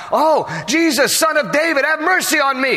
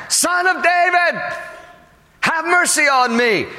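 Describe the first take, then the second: First: High, urgent plea to Jesus; pleading cry pitched well above talk. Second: Long, high-pitched call over the crowd; crying out louder. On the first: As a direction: call out high for mercy. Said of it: "So the first time, when he asked". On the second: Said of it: "all the louder it says, he cries out again". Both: Acted.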